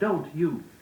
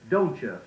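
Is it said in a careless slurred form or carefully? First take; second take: careful; slurred. First: The words are said carefully and distinctly. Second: The words are slurred together carelessly. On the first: The speaker calls it right. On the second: The speaker calls it wrong.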